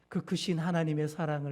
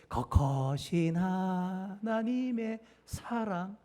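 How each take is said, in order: First: The vowel ㅡ is pronounced clearly as ㅡ. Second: The vowel ㅡ is pronounced like ㅓ.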